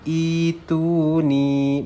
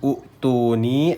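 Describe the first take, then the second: First: It begins with a long 'ee' vowel. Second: It begins with a short 'oo' vowel. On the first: The speaker calls it right. "hamzahnya panjang dua harokat" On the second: The speaker calls it wrong. "bukan utuni"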